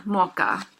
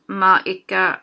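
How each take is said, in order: First: Mocha as må ikke fused into one word; everyday spoken må ikke, Mocha; squished together. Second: Må ikke merged into one word, mocha; one squished word må ikke; said together. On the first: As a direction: say Mocha with no break between må and ikke. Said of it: "one word kind of squished together". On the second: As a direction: run må and ikke together slowly. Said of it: "I pronounce this more together". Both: Shown as a demonstration.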